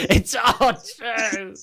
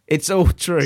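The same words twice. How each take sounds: First: Slow, laughing and high; laughing drawn out. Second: Said in the usual way. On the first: Shown as a demonstration. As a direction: laugh through it slowly.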